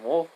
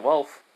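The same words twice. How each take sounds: First: "Wolf" said with the oo vowel of wool; mispronounced name. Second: "Wolf" said as Welf, with a short e; corrected name. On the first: Character names who made his blade, "Wolf" slipped with an oo vowel. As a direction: say "Wolf" like the animal, with an oo. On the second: Storyteller fixes the blade maker's name, "Wolf" pronounced as Welf. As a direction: say "Wolf" with the e of well. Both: Real, not acted. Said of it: "I mean, Wolf".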